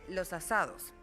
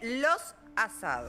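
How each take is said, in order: First: The s runs straight into the next word. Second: The s is kept apart from the next word. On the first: The speaker calls it right. "se dice los asados. Porque, porque suena mejor al oído" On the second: The speaker calls it wrong. "no se dice los asados"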